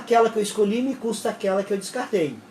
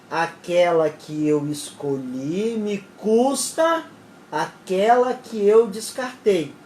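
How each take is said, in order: First: The sentence is spoken quickly. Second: The sentence is spoken slowly. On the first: The speaker calls it wrong. "Foi muito rápido" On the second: The speaker calls it right. "Vou falar então mais devagar"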